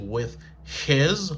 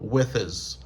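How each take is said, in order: First: There is a break before the second word. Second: The two words run together without a break. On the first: The speaker calls it wrong. "Il pas dire with his, là prend trop de temps, là bon coupure" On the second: The speaker calls it right. "il tout fait liaison with his"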